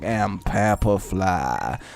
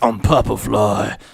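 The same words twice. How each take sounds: First: It is said in a deep voice, drawn out. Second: It is said in a deep voice, quickly.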